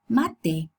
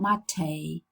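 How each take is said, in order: First: The word ends in a pure e vowel. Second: The word ends in a gliding ay vowel. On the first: This is the native Spanish pronunciation. The speaker calls it right. "We say mate" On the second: This is how English speakers say it. The speaker calls it wrong. "English people pronounce it a"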